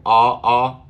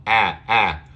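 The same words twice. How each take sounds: First: Loud "Ah" as back rounded AW; rounded back "Ah", twice; wrong back vowel. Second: "ah" as front A in cat; short A sound. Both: Shown as a demonstration.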